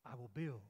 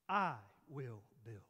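First: Said in the usual way. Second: "I" hit louder, then slow separate words; stress on I. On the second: Shown as a demonstration. Preacher stressing to the congregation who does the building, weight on "I". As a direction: lean hard on "I" and space out "will build". Repeats the verse to stress its subject.

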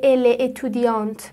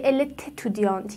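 First: "ال اتودیانت" with no t between the words; without liaison. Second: "ال تتودیانت" with a t linking the words; liaison with t. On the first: Teacher showing what is not said, "ال اتودیانت" unlinked. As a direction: keep "ال" apart from "اتودیانت", no linking t. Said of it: "به خاطر همونه نمیگه". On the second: Teacher showing the liaison, "ال تتودیانت" linked by t. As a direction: sound a t in the middle of "ال تتودیانت". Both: Shown as a demonstration.

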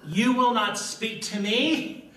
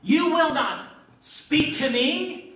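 First: "will" hit high and slow; emphatic WILL. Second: "will" stretched high and loud; stress on WILL. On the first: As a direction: stress "will" as an emphatic refusal. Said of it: "is very emphatic". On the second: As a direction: lean hard into "will", rising in outrage. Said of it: "hear it like I believe he said it". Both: Acted.

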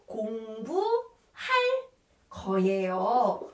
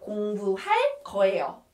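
First: "공부할 거예요" slowly, stretched and split; teacher sounding out "공부할 거예요" in pieces; drawn-out demonstration. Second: Said in the usual way. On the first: Shown as a demonstration. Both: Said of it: "We have to put 리을 거예요".

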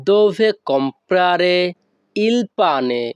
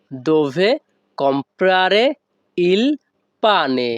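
First: Said in the usual way. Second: Dove, comprare, il, pane each set apart with small pauses; broken word by word. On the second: Shown as a demonstration. Teacher breaking the Italian phrase apart for students, word by word. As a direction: split the phrase into single words for the learner. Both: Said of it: "এখানে যদি আমরা ভেঙে ভেঙে বলি".

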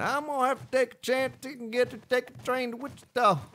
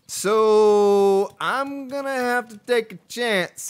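First: High-pitched country twang; put-on country singsong, pitched high; exaggerated country accent. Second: Drawn-out country twang; real country accent, opening high and loud. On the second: Real, not acted. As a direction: slip into a slow country accent. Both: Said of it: "I said that with a country accent".

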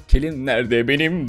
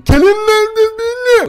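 First: Said in the usual way. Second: Very high, loud, drawn-out yell; full-on high-pitched holler; shouting. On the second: Acted. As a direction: bellow it up at a window, slowly. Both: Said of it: "diye bağırdım".

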